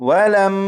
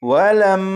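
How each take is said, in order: Both takes have the same delivery.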